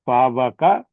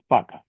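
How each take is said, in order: First: A w sound separates the first two vowels. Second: The w sound is dropped, leaving one long vowel. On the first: The speaker calls it wrong. "It's difficult to pronounce it" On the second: The speaker calls it right. "you can make it easy to pronounce"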